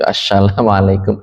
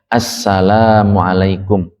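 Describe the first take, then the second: First: The consonant is an sh sound. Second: The consonant is a plain s sound. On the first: The speaker calls it wrong. "jangan dibaca shin ash kayak gitu" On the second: The speaker calls it right. "Sinnya dibaca sin"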